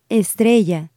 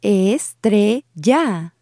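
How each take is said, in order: First: Said in the usual way. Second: Estrella split slowly into es-tre-lla; syllable by syllable. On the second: Shown as a demonstration. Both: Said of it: "break these words down syllable by syllable".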